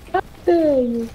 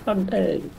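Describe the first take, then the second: First: Mock outrage, higher. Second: Mock outrage. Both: Mock outrage at teammate, rising.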